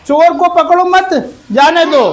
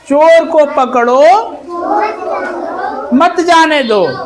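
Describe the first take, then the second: First: There is a pause after the word 'मत'. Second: There is a pause before the word 'मत'. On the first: Do not catch the thief; let him go. "इस विराम चिन्ह को हमने यहां लगा दिया" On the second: Catch the thief and do not let him go. "चोर को पकड़ लो"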